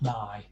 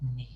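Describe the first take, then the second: First: The vowel sounds like 'eye'. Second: The vowel sounds like 'ee'. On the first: The speaker calls it wrong. "It's not nigh" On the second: The speaker calls it right. "that I vowel sound in Spanish is e"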